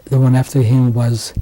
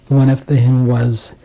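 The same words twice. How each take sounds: The two takes are said the same way.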